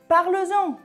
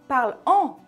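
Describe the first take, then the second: First: A z sound links the two words. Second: No z sound links the two words. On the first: The speaker calls it right. "on ajoute le s" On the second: The speaker calls it wrong. "au lieu de dire parle en"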